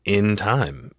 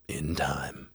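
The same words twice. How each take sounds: First: "In time" said firmly at full voice; emphatic repeat. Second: Low, soft mock-demon reply; cool demonic refusal. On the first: Retold or imitated. Repeating refusal after did I stutter. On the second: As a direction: answer softly and low, in no hurry. Retelling demon's first cool refusal.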